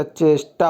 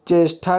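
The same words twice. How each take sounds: First: चेष्टा with an unaspirated hard t; no puff on the ट in चेष्टा; correct form. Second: चेष्टा with an aspirated "th" ending; wrong form. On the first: Teacher correcting it, चेष्टा as "cheshtaa". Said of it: "चेष्टा होता है". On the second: Teacher showing the mistake, चेष्टा as "cheshtha". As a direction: puff air on the ट in चेष्टा. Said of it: "चेष्टा नहीं होता". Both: Shown as a demonstration.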